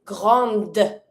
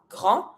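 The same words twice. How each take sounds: First: Grande closed with a clear D; French "grande" as grahnd; sounded final D. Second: Grand with the D left mute; French "grand" as grahn, no D; silent final D. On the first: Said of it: "in front of my mute E. I pronounce". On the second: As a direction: end "grand" on the nasal vowel. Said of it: "don't pronounce the D". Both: Shown as a demonstration.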